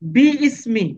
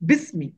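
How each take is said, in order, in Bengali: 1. দুটি আলাদা অংশ, ismi-র আগের স্বরটি উচ্চারিত হয়। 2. একটি জোড়া শব্দ, সেই স্বরটি নীরব থাকে। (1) "আমার হওয়া দরকার ছিল এখানে বি ইসমি" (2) "এই আলিফটাকে সাইলেন্ট করে ফেলি"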